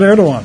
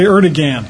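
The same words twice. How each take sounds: First: The g in the middle is silent. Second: The g in the middle is pronounced hard. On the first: The speaker calls it right. "I even said Erdogan" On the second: The speaker calls it wrong. "I didn't say Erdogan"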